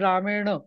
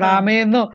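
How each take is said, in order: First: The n sound is made with a retroflex n. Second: The n sound is made with a dental n. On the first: The speaker calls it right. "रामेण किती छान वाटतं" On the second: The speaker calls it wrong. "रामेन कसं वाटतं"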